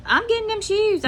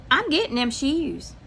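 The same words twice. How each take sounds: First: "getting" hit much higher, the whole line raised and pushed; insisting firmly. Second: Said in the usual way. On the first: Retold or imitated. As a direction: lean hard on "getting", pitched up and firm. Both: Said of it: "I said".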